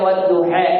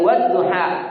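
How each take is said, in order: First: The final vowel leans toward an 'e' sound. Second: The final vowel is a plain open 'a'.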